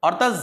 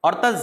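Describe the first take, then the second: No difference in how they are said.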